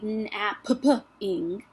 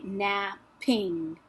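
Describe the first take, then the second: First: The middle p sound is said twice, separately. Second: The middle p sound is said once, glued. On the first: The speaker calls it wrong. "I don't say napping" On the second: The speaker calls it right. "I just say napping. They're glued together"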